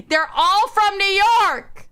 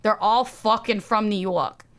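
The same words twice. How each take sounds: First: High, emphatic cry after a laugh; exasperated exclamation. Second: Said in the usual way. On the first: Real, not acted.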